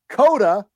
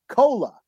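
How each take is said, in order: First: It is said with a d, Dakota style. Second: It is said with an l, Lakota style.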